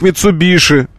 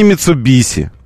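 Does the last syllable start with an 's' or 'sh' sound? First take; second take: sh; s. First: The last syllable starts with an 'sh' sound. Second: The last syllable starts with an 's' sound. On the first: The speaker calls it right. "мы прочитываем как Митсубиши" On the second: The speaker calls it wrong. "а не Митсубиси"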